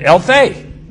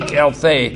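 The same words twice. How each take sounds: First: "Elthei" called out loud and high as a command. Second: Said in the usual way. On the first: Retold or imitated. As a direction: bark "Elthei" as an order to step out. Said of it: "a commanding word". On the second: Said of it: "this is the Greek".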